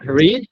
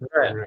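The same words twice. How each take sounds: First: The vowel is long, sounding like 'reed'. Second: The vowel is short, sounding like 'red'. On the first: It is the base form of the verb. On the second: It is the past participle of the verb.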